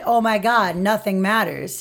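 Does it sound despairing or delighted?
despairing. It sounds despairing and hopeless.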